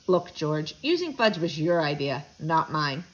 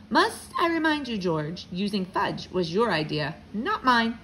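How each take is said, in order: First: Low, weary father's protest; groaned. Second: Pointed reminder. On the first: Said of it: "My father groaned". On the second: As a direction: push back without hollering. Father firmly answers angry client. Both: A narrator's reading.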